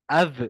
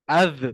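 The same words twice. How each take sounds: Both takes have the same delivery.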